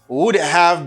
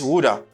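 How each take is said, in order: First: Both words are said fully and separately. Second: The words blend into one reduced form.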